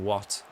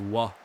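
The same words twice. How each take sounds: First: It is said with the final T pronounced. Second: It is said the Irish way, without the final T.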